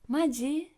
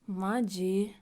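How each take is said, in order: First: It is said in an excited tone. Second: It is said in an annoyed tone. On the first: It expresses excited surprise. "we used maji in an excited way" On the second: It expresses irritated disbelief. "some angry, annoyed expressions"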